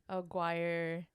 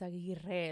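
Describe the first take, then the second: First: The name is said with English-style sounds. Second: The name is said with Spanish-style sounds. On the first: This is how other people usually say it. The speaker calls it wrong. "What do they say?" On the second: This is how the family name really sounds. The speaker calls it right. "it's Aguirre"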